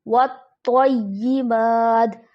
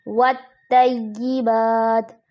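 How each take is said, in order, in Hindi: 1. t की आवाज़ भारी और भरी हुई है। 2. t की आवाज़ हल्की और पतली है। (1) "दुरुस्त अदायगी ... इसको हर हाल में मोटा पढ़ा जाएगा" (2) "तो की जगह ता की अदायगी आ जाती है, जैसे वत्तय्यिबात, जो कि दुरुस्त नहीं है"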